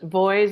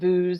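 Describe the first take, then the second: First: The vowel rhymes with boys and toys. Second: The vowel does not rhyme with boys. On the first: The speaker calls it right. "It's pronounced Voice, like boys and toys" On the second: The speaker calls it wrong. "Most people pronounce it Vooz"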